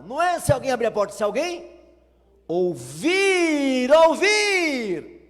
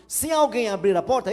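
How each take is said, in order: First: Ênfase crescente em "ouvir", forte e agudo; stress on ouvir. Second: Said in the usual way. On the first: Shown as a demonstration. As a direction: land hard on "ouvir" both times, climbing louder. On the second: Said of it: "É assim que fala lá?".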